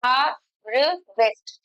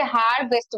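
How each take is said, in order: First: harvest very slowly, with gaps between the sounds; teacher sounding out harvest in separate pieces; broken into syllables. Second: Said in the usual way. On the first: Shown as a demonstration. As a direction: pull harvest apart, हा, र, waste. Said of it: "इस तरीके से हम break करके बोलते हैं". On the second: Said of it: "जैसे harvest बोलते हैं".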